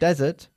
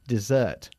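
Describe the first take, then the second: First: The stress is on the first syllable. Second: The stress is on the second syllable. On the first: It means a dry sandy region. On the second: It means a sweet course after a meal.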